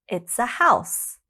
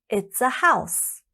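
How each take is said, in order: Both takes have the same delivery.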